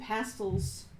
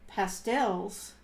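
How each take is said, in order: First: It is said with a non-American pronunciation. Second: It is said with an American pronunciation. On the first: "I call them pastels with that pronunciation because that's the way I was introduced to it" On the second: "I heard Americans say pan pastels, and it just didn't sound right"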